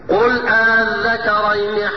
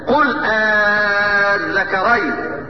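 First: The hamza is softened, between hamza and alif. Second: The hamza becomes a long, drawn-out alif. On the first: "اسمع مني على وجه التسهيل" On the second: "ابدال همزة الوصل الفا، فمد مد لازم كلمي"

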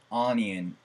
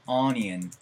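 No difference in how they are said.

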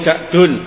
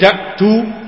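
First: The word ends with an n sound. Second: The word ends on a plain vowel. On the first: The speaker calls it right. "Tapi yang lebih bagus munsharif" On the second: The speaker calls it wrong. "boleh kita membacanya malayan sharif"

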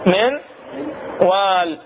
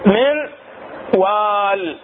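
Both takes have the same delivery.

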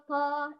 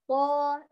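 First: The consonant is weak and runs on. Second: The consonant is held firm and strong. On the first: The speaker calls it wrong. "لا تخلي الصوت هكذا ضعيف" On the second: The speaker calls it right. "لا نجري الصوت فيه بل نقول"

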